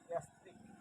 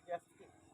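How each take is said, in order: First: It is said with a drawn-out pull. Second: The same.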